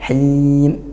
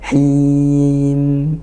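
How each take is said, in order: First: The final m is jolted and cut off abruptly. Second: The final m ends smoothly without a jolt. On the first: The speaker calls it wrong. "bukan him" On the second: The speaker calls it right. "mimnya juga jangan dihentak"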